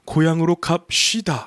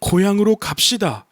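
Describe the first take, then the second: First: The s sound is said with strong emphasis. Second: The s sound is said plainly, without emphasis. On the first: "시옷에서 그 특색이 나오는데 ... 약간 단어를 강조해주는 악센트가 있죠" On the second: "이렇게 표현하는 게 아니라"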